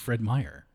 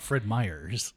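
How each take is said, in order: First: The name ends without an s sound. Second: The name ends with an added s sound. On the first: The speaker calls it right. "It's Fred Meyer" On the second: The speaker calls it wrong. "It's not Fred Myers"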